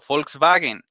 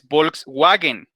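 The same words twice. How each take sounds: First: The word starts with an f sound. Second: The word starts with a voiced v sound. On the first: The speaker calls it right. "la V ellos la pronuncian como si fuera una F" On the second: The speaker calls it wrong. "No es Volkswagen"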